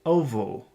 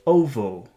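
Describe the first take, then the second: First: The R is replaced by a W-like sound. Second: The R is replaced by a W-like sound.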